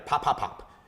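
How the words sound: The three pops come quickly, close together. The speaker calls it right. "So three together"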